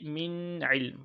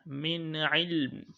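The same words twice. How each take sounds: First: Slow "min ilm" with the n of "min" held long; wrong emphasised nun. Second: "min ilm" with a clear n moving straight into the ain; nun without emphasis. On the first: Teacher showing what to avoid, over-held n in "min ilm". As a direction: hang on the n before "ilm". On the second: Teacher modelling for students, unemphasised n in "min ilm". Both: Shown as a demonstration. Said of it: "Do not say min ilm".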